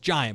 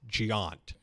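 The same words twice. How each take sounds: First: The name is said like the English word giant. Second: The name is said the way Europeans say it. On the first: This is how the speaker always assumed it was said. The speaker calls it wrong. "I just thought it was Giant" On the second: This is how the company's name is actually said. The speaker calls it right. "but it's Giant"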